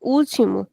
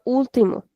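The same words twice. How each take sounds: First: "último" as OOL-chee-mo, stressed at the start; ch sound in "último", opening syllable held; accented Brazilian pronunciation. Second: "último" as OOL-tee-mo, stressed at the start; plain t in "último", opening syllable held; accented European pronunciation. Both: Shown as a demonstration. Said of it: "since there is an accent, I'll have to say".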